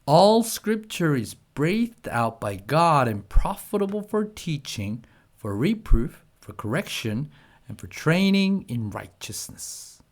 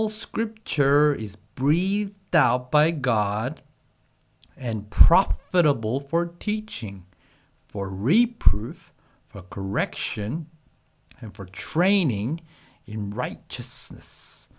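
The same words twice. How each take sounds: First: It is read at a faster pace. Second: It is read at a slow pace.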